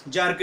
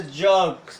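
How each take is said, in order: First: "जर्क" with an R before the k; "जर्क" with sounded R. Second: "जर्क" with vowel straight into k; "जर्क" with silent R. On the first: Teacher shows what to avoid, "जर्क" with audible R. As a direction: let the R be heard in "जर्क". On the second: Teacher models British word for learners, "जर्क" without R. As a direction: drop the R in "जर्क". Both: Shown as a demonstration. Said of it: "जर्क नहीं होगा".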